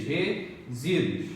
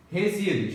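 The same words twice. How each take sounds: First: "resíduos" slowed right down, syllables apart. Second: Said in the usual way. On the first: Shown as a demonstration. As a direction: separate the syllables of "resíduos" with a pause. ("resíduos" devagar, sílaba por sílaba) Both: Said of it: "Faça a separação silábica".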